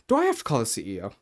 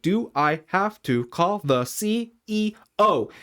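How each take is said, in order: First: Said in the usual way. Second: Slow and high, each of C, E, O set apart; deliberate, word-by-word challenge on "C E O"; slow, pointed repeat. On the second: Retold or imitated. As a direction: spell out C... E... O as a threat. Repeated after "Excuse me?.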